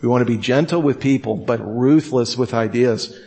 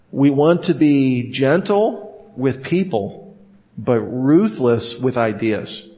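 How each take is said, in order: First: "gentle with people" fast, "ruthless" slowed; quicker repeat. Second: Slow, weighty, stress on "ruthless"; slow first take. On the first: Teacher repeating the maxim for emphasis, quicker start. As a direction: rush the first half, lean on "ruthless". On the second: Teacher giving the maxim slowly the first time. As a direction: lay "gentle with people" down slowly. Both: Shown as a demonstration. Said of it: "Let me repeat that".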